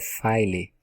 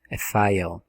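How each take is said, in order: First: The word ends with an added vowel after l. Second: The word ends cleanly on the l sound. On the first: The speaker calls it wrong. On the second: The speaker calls it right.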